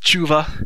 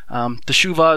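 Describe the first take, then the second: First: The vowel after the first consonant is dropped. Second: The vowel after the first consonant is pronounced.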